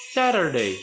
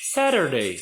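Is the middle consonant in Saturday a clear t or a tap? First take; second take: tap; tap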